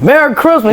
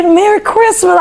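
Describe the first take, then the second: First: Higher, measured holiday greeting with a lighter touch; a president greeting a choir student; Obama's voice. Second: High, sweet Merry Christmas, much higher; gracious first lady wishing Merry Christmas, sung out high; Michelle Obama's voice. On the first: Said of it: "you got a good Obama impression". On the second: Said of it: "She said". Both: Retold or imitated.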